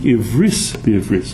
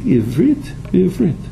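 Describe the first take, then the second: First: It is said in Ashkenazi Hebrew pronunciation. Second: It is said in modern Hebrew pronunciation.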